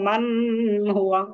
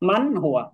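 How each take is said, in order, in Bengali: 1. n টি একটি নাসিক্য গুঞ্জনের মধ্যে চাপা পড়ে থাকে। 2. n টি স্পষ্ট ও পূর্ণভাবে উচ্চারিত হয়। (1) "এখানে মান হুয়া এরকম বলতে পারবো না" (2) "এখন স্পষ্ট করে পড়তে হবে"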